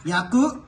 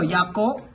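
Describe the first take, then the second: First: The word ends with a 'u' vowel. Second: The word ends with an 'o' vowel. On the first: The speaker calls it right. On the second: The speaker calls it wrong.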